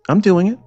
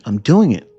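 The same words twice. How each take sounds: First: I'm doing it, much higher with a rising pitch on I'm; insist, pitched up on I'm; rising, insistent I'm doing it; emphatic repeat. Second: Said in the usual way. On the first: Real, not acted.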